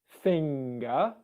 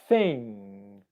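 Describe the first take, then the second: First: The word ends with an audible hard g. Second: The word ends in ng with no hard g. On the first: The speaker calls it wrong. "it's not finger" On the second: The speaker calls it right. "it's thing"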